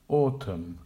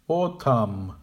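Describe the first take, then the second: First: "Autumn" as AW-tum, second syllable weak; correct with schwa. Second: "Autumn" with a full AH in the second syllable; incorrect full vowel. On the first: Teacher modelling the correct "Autumn". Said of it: "Make the weak syllables quiet". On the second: Teacher modelling the wrong "Autumn". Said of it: "the incorrect pronunciation". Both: Shown as a demonstration.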